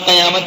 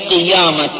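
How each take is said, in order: First: The first vowel is an 'a' sound: qayamat. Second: The first vowel is an 'i' sound: qiyamat. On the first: This is how it is commonly said in Urdu. The speaker calls it wrong. "Urdu के अंदर तो इसको काफ के जबर के साथ बोल देते हैं" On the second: This is the original form of the word. The speaker calls it right. "लेकिन हकीकत में लफ्ज़ क़ियामत काफ के ज़ेर के साथ है"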